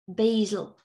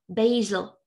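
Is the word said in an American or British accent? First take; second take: American; American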